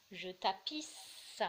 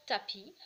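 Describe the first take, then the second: First: "Je tapisse" very slow, with a long hissed S at the end; final S sounded. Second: "tapis" ending on the I vowel, S left silent; silent final S. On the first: Teacher showing where S is heard, "tapisse" with a long final S. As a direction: draw out the last sound of "tapisse". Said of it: "là je l'entends". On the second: Teacher showing S is not heard, "tapis" with silent S. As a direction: stop "tapis" on its vowel, no S sound. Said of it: "je n'entends pas". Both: Shown as a demonstration.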